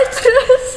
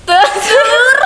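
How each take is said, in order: First: "Terus" with a trilled Indonesian r; rolled r. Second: "Telur" with a clear l sound, high and laughing; mispronounced r. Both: Shown as a demonstration. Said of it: "Saya susah R dan R".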